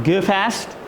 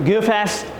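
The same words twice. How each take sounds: Both takes have the same delivery.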